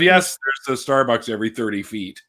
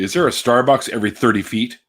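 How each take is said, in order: First: "Yes, there's a Starbucks every thirty feet" as a firm falling answer, with "Yes" stressed. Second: Rising quiz question about Starbucks. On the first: Vancouver guy answering an online quiz with a flat falling yes. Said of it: "I would have". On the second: Vancouver guy imitating an online quiz asking about Starbucks, with a rising question. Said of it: "They can say". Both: Retold or imitated.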